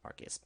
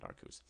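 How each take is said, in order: First: Arceus said as "AR-kiss"; alternative pronunciation of Arceus. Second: Arceus said as "AR-koos"; own pronunciation of Arceus. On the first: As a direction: say Arceus softly, ending in "iss". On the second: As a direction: say Arceus with an "oos" ending. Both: Shown as a demonstration. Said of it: "I pronounce it Arceus".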